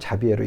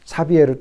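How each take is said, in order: First: The name begins with a J sound. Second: The name begins with an S sound. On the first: "사비에르 또는 자비에르 이렇게 부릅니다" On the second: "사비에르 또는 자비에르 이렇게 부릅니다"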